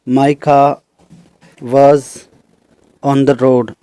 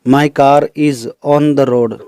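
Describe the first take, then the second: First: "my car was" said slowly with the r of "car" left silent; slow teacher demo, "car" with no r sound. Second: "my car is" said very slowly with the r of "car" sounded into "is"; slow, careful teacher demo, "car-r is" linked; linking r demo. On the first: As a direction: drop the r in "car" before "was". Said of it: "इनमें last में र को हम bracket में रख रहे हैं". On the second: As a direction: pronounce the r in "car" before "is". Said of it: "तो इसमें कार इज में आई साउंड आया हुआ है". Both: Shown as a demonstration.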